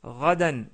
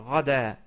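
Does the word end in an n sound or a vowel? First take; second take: n sound; vowel. First: The word ends with an n sound. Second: The word ends on a vowel, without n.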